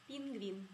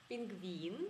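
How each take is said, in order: The two takes are said the same way.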